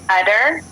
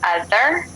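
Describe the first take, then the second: First: The middle consonant is a plain t sound. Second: The middle consonant is a th sound. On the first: "you said utter" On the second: "or other"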